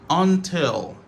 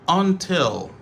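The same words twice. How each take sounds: No difference in how they are said.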